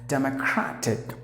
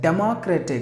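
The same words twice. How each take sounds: First: The 'crat' syllable is said louder than the rest. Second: The 'crat' syllable is not given extra loudness. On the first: The speaker calls it right. "Crash should be given more volume" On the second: The speaker calls it wrong. "usually people would say it as democratic"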